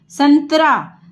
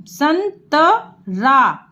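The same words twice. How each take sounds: First: Said in the usual way. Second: संतरा stretched out syllable by syllable; slow spelled-out. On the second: Shown as a demonstration. Teacher to pupils, sounding out संतरा slowly. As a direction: drag संतरा out part by part.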